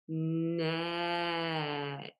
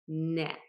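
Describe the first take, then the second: First: The word is stretched out slowly, sound by sound. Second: The word is said at normal speed.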